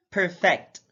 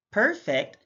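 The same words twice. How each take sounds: First: PerFECT, loud FECT; careful demo of perFECT; stress on second syllable. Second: PERfect, high PER; careful demo of PERfect; stress on first syllable. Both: Shown as a demonstration. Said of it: "stress is the verbal emphasis used".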